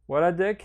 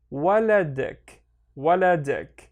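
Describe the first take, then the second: First: Said in the usual way. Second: WALADIK slow, each syllable stretched; slow teaching demo of "waladik". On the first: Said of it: "and then connect them". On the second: Shown as a demonstration. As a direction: sound out "waladik" slowly, beat by beat. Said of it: "read each one on its own".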